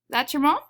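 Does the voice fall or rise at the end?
rise. The voice rises at the end. It is a yes-or-no question. "that has a very different meaning than saying"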